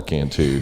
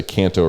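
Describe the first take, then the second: First: "Cantu" ending in an OO sound; "Cantu", last syllable rhyming with who; mistaken name pronunciation. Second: "Canto" ending in a long O; "Canto", last syllable rhyming with go; correct name pronunciation. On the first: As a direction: say "Cantu" with a final "too". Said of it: "Don't call her Cantu". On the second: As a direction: say "Canto" with a final "toe". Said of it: "we're gonna make sure we say Canto right". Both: Shown as a demonstration.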